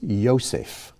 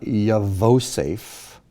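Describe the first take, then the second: First: No v sound is heard in the middle. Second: A v sound is heard in the middle. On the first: The speaker calls it right. "Here the V is not pronounced" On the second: The speaker calls it wrong. "This is not Yavosef"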